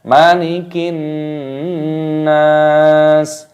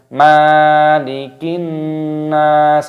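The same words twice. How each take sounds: First: The vowel after the m is kept short. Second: The vowel after the m is held long. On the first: The speaker calls it right. "mimnya di sini dibaca pendek ya" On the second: The speaker calls it wrong. "mimnya dibaca panjang"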